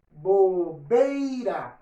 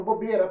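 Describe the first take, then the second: First: Bobeira very slow, bo-bei-ra with the ei; slow model bobeira with a clear ei; careful diphthong. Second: Bobeira said as bobera, no i; casual everyday bobeira as bobera; reduced diphthong. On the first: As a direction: draw out bobeira, sounding the i. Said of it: "Olha o meu ditongo". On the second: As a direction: drop the i: bobera. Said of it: "Mas na hora de falar, eu falo bobeira". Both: Shown as a demonstration.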